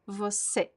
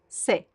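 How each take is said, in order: First: Both syllables are said, the first one weak. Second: Only the final stressed syllable is said. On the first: "the first syllable is unstressed, right? Vo, it's weak, and se is the stressed syllable" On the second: "when you speak fast, we drop the first syllable"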